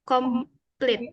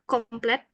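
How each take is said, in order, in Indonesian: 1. Suku kata terakhir memiliki vokal 'ee'. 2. Suku kata terakhir memiliki vokal 'eh'. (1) "itu bacanya komplit" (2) "bukan komplet"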